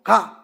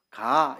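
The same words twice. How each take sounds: First: "가" higher and louder, with a rise. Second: Said in the usual way. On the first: Shown as a demonstration. Preacher contrasting intonation, a louder rising "가". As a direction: lift "가" up and push it. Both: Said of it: "억양에 따라서 느낌이 완전히 달라집니다".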